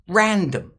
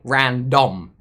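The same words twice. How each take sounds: First: Only the first syllable is stressed; the second is weak. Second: The second syllable is stressed with a full vowel. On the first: The speaker calls it right. "we're stressing the first sound and unstressing the second sound" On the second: The speaker calls it wrong. "We won't say random. That would be, again, very strange"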